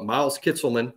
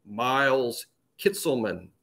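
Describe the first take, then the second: First: Said in the usual way. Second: Miles Kitselman said slowly, each name set apart; roster pronunciation voice. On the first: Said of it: "on it it'll say". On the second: Retold or imitated. Roster audio guide telling fans the name, slow pronunciation voice. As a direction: lightly imitate a recording sounding out Miles Kitselman. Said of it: "a voice say out loud".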